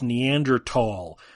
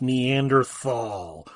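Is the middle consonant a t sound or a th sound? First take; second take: t sound; th sound. First: The middle consonant is a plain t sound. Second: The middle consonant is a th sound. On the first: The speaker calls it right. "The T and the H are together, but they're not pronounced together" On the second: The speaker calls it wrong. "it's not pronounced Neanderthal"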